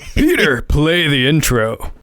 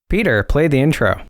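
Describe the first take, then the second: First: It is said loud and fiery. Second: It is said with low energy.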